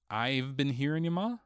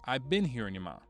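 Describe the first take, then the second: First: A 've sound follows I before been. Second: No 've sound follows I before been. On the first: "As in, I have been hearing you, Ma?" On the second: "Without the apostrophe V E after the I"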